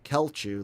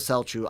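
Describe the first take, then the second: First: The name begins with a hard K sound. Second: The name begins with a soft S sound. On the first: The speaker calls it wrong. "hard hard C again" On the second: The speaker calls it right. "Tycho Selchu"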